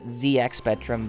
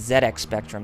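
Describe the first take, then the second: First: The letters are said a non-British way. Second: The letters are said the British way. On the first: "some of us would tend to pronounce it" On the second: "in Britain they actually pronounced it as"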